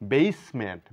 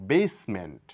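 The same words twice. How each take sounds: The two takes are said the same way.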